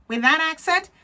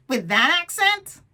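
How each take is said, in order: First: Higher and louder sneer; scornful inner critic. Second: Higher, louder, slow sneer; scornful inner critic. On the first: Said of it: "The inner critic". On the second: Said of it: "Inner critic". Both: Acted. Inner critic sneering at the would-be speaker, higher and louder. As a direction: scoff at the very idea.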